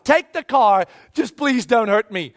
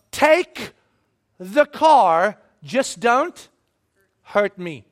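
First: Mild acted begging, in one flow; pleading surrender. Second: "Take the car, just don't hurt me" broken by long pauses, dropping away; "Take... the car... just don't... hurt me", halting and measured; careful surrender. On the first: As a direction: run it together as an urgent plea. Repeats the surrender as a plea. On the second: Acted. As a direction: hand over "the car" bit by bit, pausing before "hurt me".

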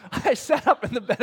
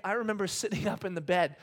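First: Said through a laugh, louder; tickled by the memory, laughing out the words. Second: Said in the usual way. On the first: Real, not acted. Preacher telling the church about the night, laughing.

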